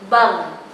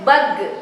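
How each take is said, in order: First: The final consonant is held without a bounce. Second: The final consonant is released with a bounce. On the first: The speaker calls it right. "Perhatikan ketika gha sukun" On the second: The speaker calls it wrong. "tidak boleh bag, gak boleh dipantulkan"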